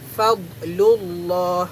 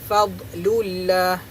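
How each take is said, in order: First: The 'l' of Allah sounds heavy and thick. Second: The 'l' of Allah sounds light and thin. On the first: The speaker calls it right. "Kita kena baca secara tebal" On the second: The speaker calls it wrong. "Tak boleh baca fadlullah. Itu salah"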